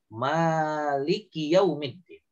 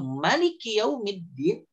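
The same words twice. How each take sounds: First: The first vowel, after the m, is long. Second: The first vowel, after the m, is short. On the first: It means the owner. "jadi dipanjangkan, memanjangkan huruf mim" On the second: It means the king. "tanpa alif, tanpa dipanjangkan"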